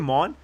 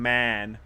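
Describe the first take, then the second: First: The vowel is rounded and back, like 'mon'. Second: The vowel is open and front, like 'man'. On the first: "I said my man as Mon" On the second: "to make it fit in more with uh with the Canadians"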